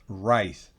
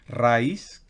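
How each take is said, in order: First: The r is pronounced the English, guttural way. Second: The r is pronounced the Spanish way. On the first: The speaker calls it right. "En inglés es r, r, rice. Rice. Gutural" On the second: The speaker calls it wrong. "no es raíz, como es fácil para nosotros en español"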